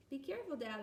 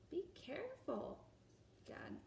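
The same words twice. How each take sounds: First: Said in the usual way. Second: Hushed warning whispered to dad; child whispering a warning. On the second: Acted. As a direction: whisper it in the dark. Child warns dad in dark.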